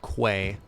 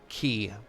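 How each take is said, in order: First: The word starts with a 'kw' sound. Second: The word sounds exactly like 'key'. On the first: The speaker calls it wrong. "the first time I tried to pronounce it Quay, and I got dunked on by chat" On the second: The speaker calls it right. "it's pronounced key"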